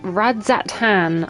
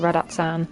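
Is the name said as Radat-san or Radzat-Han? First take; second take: Radzat-Han; Radat-san. First: The name is said with a 'dz' and 'h'. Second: The name is said with a 't' and 's'. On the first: The speaker calls it right. "pronouncing that properly" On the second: The speaker calls it wrong. "I always say Radat-san"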